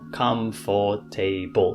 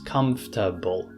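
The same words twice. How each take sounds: First: The word is said with four syllables. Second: The word is said with three syllables. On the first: The speaker calls it wrong. "not comfortable. It's not four syllables" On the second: The speaker calls it right. "So it becomes three syllables"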